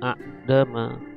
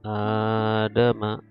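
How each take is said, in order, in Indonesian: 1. Hamzah menutup vokal pertama yang pendek. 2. Vokal pertama ditahan panjang, tanpa hentian. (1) "asli ucapannya"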